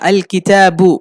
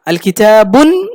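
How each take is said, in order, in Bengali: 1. শব্দটি একটি স্বরধ্বনি দিয়ে শেষ হয়, n নেই। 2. শব্দটির শেষে একটি বাড়তি n ধ্বনি যুক্ত হয়েছে। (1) "শুরুতে আল লাগলে শেষে তানউইন হবে না" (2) "এমন বলা যাবে না"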